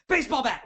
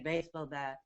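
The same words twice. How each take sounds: First: It is said powerfully with lots of energy. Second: It is said flatly with little energy.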